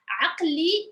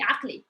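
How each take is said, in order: First: It is said slowly with a clear inner vowel. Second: It is said quickly with the vowel nearly gone. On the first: "I put the vowel" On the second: "we say it through like really fast"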